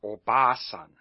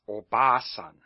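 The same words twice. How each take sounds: First: The middle 'a' vowel is long. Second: The same.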